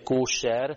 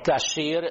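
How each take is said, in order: First: The first vowel is an 'o' sound. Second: The first vowel is an 'a' sound.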